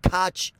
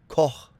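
First: The name is said in another Americanized way. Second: The name is said the German way. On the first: The speaker calls it wrong. "This is not Koch either" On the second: The speaker calls it right. "This is going to be Koch"

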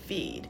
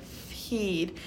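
First: The F flows smoothly into the vowel. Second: An exaggerated breathy H puff follows the F. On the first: The speaker calls it right. "it'll sound like feed" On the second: The speaker calls it wrong. "it won't sound like feed"

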